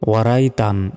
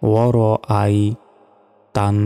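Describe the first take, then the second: First: The syllables run together without a glottal catch. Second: A glottal catch separates war from ai. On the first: The speaker calls it wrong. "আমরা অনেকে এখানে ভুল উচ্চারণ করি, বলি যে ওয়ারাই তান" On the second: The speaker calls it right. "Hamza ইয়া জবর আই"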